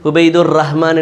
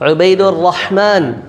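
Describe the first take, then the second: First: The name is said casually, like an everyday call. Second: The name is said with careful, precise articulation. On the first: The speaker calls it wrong. "சும்மா உபைதுர் ரஹ்மான் என்று கூப்பிடுறதுக்கும்" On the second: The speaker calls it right. "அழகா இருக்கு"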